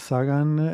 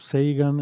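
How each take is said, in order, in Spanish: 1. La primera vocal es una 'a' española normal. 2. La primera vocal es un diptongo inglés 'ay'. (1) "yo suelo decir Sagan porque es como en español" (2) "la pronunciación así inglesa"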